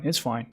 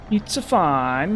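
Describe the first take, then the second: First: Said in the usual way. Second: Slow, sing-song mock Italian; mock Italian accent. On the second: Gamer consoling himself after a setback, mock Italian accent. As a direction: drag it out in cartoon Italian. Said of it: "I could do that accent".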